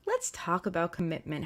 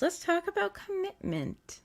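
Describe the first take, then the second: First: Said in the usual way. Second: "Let's talk about commitment" said higher, slower and softer; lifted emphasis. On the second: Shown as a demonstration. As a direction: float "Let's talk about commitment" up high and slow, gently. Repeats key phrase for emphasis.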